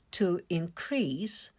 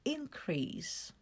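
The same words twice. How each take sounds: First: To inCREASE, stress on CREASE, slow; slow verb stress demo; stress on second syllable. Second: INcrease, stress on IN, said softly; soft noun stress demo; stress on first syllable. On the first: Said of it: "A stress falls on the second syllable". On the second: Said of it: "the stress falls on the first syllable". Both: Shown as a demonstration.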